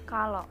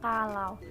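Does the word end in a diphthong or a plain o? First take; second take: plain o; diphthong. First: The final vowel is a plain o sound. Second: The final vowel is the diphthong au. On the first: The speaker calls it wrong. "Pelafalan diftong au dengan O" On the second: The speaker calls it right.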